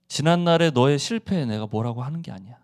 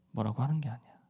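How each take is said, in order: First: Said in the usual way. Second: 뭐라고 하는 게 아니야 repeated much softer and lower; Jesus gently reassuring Peter, softly; soft reassurance. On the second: Acted. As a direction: soothe him, bringing the repeat right down.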